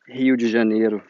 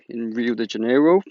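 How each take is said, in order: First: The name is said with a Portuguese accent. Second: The name is said with an English accent. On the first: "that's how you say it" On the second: "I just tried saying Rio de Janeiro with an English accent"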